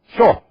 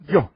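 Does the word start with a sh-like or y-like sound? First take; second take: sh-like; y-like. First: It is said the Argentine way, with a sh-like start. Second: It is said with a gliding y start.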